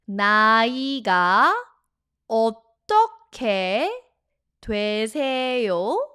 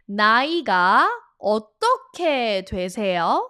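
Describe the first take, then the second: First: It is said at a slow speed. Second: It is said at a normal speed.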